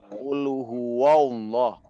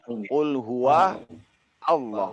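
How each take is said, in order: First: The wa sound is made thick and heavy. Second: The wa sound stays thin and light. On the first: The speaker calls it wrong. "janganlah kita menebalkan waw ... nggak boleh dibaca qul huwallah" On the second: The speaker calls it right. "Tetap dia stabil wa ini tidak terpengaruh"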